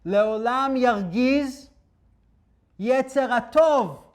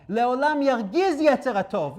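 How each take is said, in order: First: Each word drawn out slowly and loud, leaning on yargiz; slow emphatic quote. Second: Yargiz punched at normal speed; quick restatement. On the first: Slow stressed recitation. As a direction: rabbi slowly intones the verse to his listeners, stressing yargiz. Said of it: "What does it mean? Yargiz". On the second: Brisk stressed restatement. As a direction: rabbi repeats the verse to explain it, stressing yargiz. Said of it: "You have to annoy the Yetzer Hatov". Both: Shown as a demonstration.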